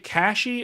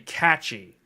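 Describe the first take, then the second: First: The middle consonant is an 'sh' sound. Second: The middle consonant is a 'ch' sound. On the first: "Cache as in like three D V Cache" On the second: "like it's got a catchy name"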